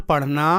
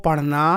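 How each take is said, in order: The two takes are said the same way.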